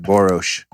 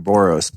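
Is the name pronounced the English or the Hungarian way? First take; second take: Hungarian; English. First: The name is pronounced in a Hungarian way. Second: The name is pronounced in an English way. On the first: "when you pronounce it in your native tongue, it's more like Boros" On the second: "I always call you Doctor Boros"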